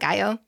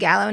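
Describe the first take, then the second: First: Said the same as in pico de gallo. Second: Said unlike the food name pico de gallo. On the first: This is how the food is said. The speaker calls it wrong. "not Gallo" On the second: This is how the player's name is said. The speaker calls it right. "it is pronounced Gallo"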